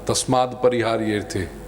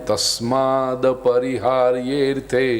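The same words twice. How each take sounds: First: The d sound is clipped, half-pronounced. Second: The d sound is fully pronounced. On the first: The speaker calls it wrong. "द अधूरा नहीं है" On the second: The speaker calls it right. "वो द अक्षर सही से बोलो पूरा"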